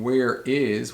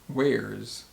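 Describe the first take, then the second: First: Both words are said in full. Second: The two words merge into one syllable. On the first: "instead of saying where is" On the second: "we say where's"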